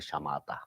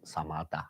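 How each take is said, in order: First: The word begins with an sh sound. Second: The word begins with a plain s sound. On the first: This is how Tibetans and Westerners say it. "We call the shamatha" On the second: This is how people in India say it. "Most some Indian people should be say samatha"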